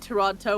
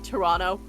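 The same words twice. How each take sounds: First: The second T is clearly pronounced. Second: The second T is dropped, Canadian style.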